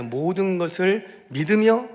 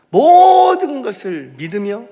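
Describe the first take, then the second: First: Said in the usual way. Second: 모든 stretched long, high and loud; preacher hammering 모든, slow and high; stress on 모든. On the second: Shown as a demonstration. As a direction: belt out a drawn-out 모든 for emphasis. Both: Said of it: "모든 것이에요".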